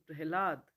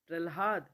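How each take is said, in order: First: The h sound comes before the l sound. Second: The l sound comes before the h sound. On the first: The speaker calls it right. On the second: The speaker calls it wrong.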